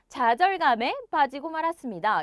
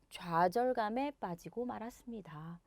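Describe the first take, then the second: First: It is said forcefully with strong energy. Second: It is said softly with relaxed energy. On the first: The speaker calls it wrong. "이런 식으로 강하게 얘기하기보다는" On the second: The speaker calls it right. "살짝 힘을 빼주시면 돼요"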